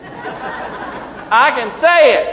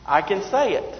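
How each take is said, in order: First: Loud, high, drawn-out exclamation; triumphant boast. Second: Said in the usual way. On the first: Real, not acted. Preacher who finally got the word out, triumphant shout. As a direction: belt it out slowly, proud to manage it.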